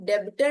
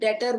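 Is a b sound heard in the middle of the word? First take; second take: yes; no. First: A b sound is pronounced in the middle. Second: No b sound is pronounced in the middle. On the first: The speaker calls it wrong. "हम डेबिटर नहीं बोलते हैं" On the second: The speaker calls it right. "इसमें बी silent है, हम इसको डेटर बोलते हैं"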